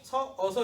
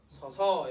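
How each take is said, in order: First: The two identical vowels are pronounced separately. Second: The two identical vowels merge into one sound. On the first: The speaker calls it wrong. "서, 어서 이러지 않고" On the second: The speaker calls it right. "서서 이렇게 동음 탈락"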